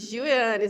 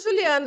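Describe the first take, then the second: First: The name is said slowly with parts distinct. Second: The name is said fast and run together. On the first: This is how the speaker says it. "eu falei Gil Yannis" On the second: This is how people in Portugal say it. "os portugueses falam mais rápido"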